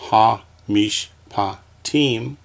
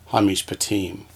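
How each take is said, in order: First: "ha, mish, pa, tim" in four spaced beats; syllable by syllable. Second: Said in the usual way. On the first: Shown as a demonstration. Teacher dividing a word for students, "ha, mish, pa, tim" one by one. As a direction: pause after each syllable of "ha, mish, pa, tim". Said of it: "we have syllables".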